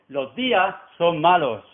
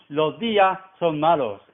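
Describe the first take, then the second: The two takes are said the same way.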